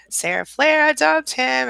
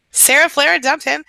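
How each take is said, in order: First: High, drawn-out cheer; stretched celebratory repeat; slower excited repeat. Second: High, loud announcement; triumphant announcement; excited cheer. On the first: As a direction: savour the news slowly. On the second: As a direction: cheer her news out. Celebrating a viewer's breakup. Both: Real, not acted.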